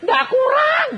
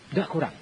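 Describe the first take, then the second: First: High, loud, emphatic "Ndak kurang"; emphatic denial. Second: Said in the usual way. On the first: Retold or imitated. ("Ndak kurang" diucapkan tinggi dan keras) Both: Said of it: "retold answer about money".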